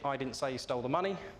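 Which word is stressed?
none. It is said in one flat tone.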